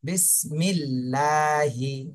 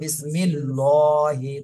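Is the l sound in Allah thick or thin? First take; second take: thin; thick. First: The l sound is light and clear. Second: The l sound is heavy and dark. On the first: The speaker calls it right. "চিকন করে পড়তে হবে।" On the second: The speaker calls it wrong. "তাহলে মোটা হয়ে গেল"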